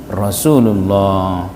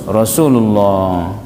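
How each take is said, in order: The two takes are said the same way.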